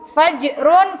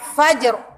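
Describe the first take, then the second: First: The word ends with the syllable -run. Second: The word stops abruptly on the r. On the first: This is the full form used when reading on. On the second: This is the form used when pausing on the word. "kalau wakof jadi fajr"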